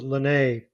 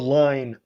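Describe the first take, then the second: First: It ends with a stressed, accented final vowel. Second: It sounds like the English word line. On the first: "put an accent on this and pronounce it Linné" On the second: "As a gringo, that's spelled line"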